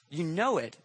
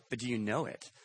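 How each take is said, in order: First: Said in the usual way. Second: "do you know it?" dropped soft, leaning on "know"; a quiet probing "know"; stress on know. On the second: Shown as a demonstration. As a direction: hush it and press the word "know".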